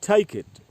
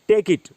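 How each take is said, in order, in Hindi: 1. t महाप्राण है, इसमें हवा का झोंका होता है। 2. t अल्पप्राण है, इसमें हवा का झोंका नहीं होता। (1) "बोलना है" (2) "हिंदी में उसको बोलते हैं"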